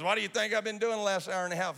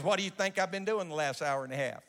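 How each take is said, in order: First: Faster, higher, pushing the question home; pressing the prophet's question. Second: Plain retold question; steady quoted question, not pushed; quoting the prophet. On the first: Retold or imitated. Scene: the prophet insists to the doubting preachers, faster and higher. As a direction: lean in and rush it, insisting. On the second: Scene: the old prophet asks the young preachers, plainly. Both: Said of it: "He goes".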